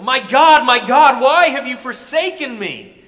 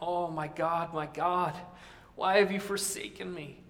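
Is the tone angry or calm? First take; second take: angry; calm. First: It is said in an angry, raging tone. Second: It is said in a calm, not angry tone.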